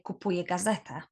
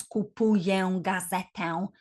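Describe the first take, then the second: First: Kupuję gazetę said quickly, final ę as a simple "eh"; kupuję gazetę, casual and quick, no nasal on the final ę; everyday denasalised ę. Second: Kupuję gazetę with both final ę fully nasal, like "own"; kupuję gazetę, over-careful, final vowels gliding into a nasal "-own"; over-pronounced nasal ę. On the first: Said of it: "We just say". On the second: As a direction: sound out each nasal ending in kupuję gazetę. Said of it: "We won't really pronounce". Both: Shown as a demonstration.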